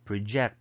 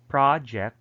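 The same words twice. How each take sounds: First: The stress is on the second syllable. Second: The stress is on the first syllable. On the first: It is used as a verb. "Project is the verb" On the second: It is used as a noun. "that's a noun"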